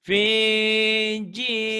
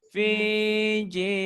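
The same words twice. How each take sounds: Both takes have the same delivery.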